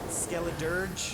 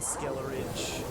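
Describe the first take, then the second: First: The name ends with a 'dirge' sound. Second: The name ends with a 'ridge' sound. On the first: The speaker calls it right. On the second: The speaker calls it wrong.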